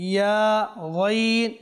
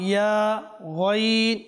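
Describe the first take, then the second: The two takes are said the same way.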